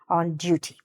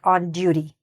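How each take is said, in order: First: The t in duty is pronounced clearly and crisply. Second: The t in duty is softened, not fully pronounced. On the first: "if you do pronounce that T on duty" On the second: "or you could not. You could say it like on duty"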